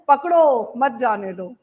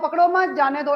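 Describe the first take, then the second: First: The pause comes after 'पकड़ो'. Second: The pause comes after 'मत'.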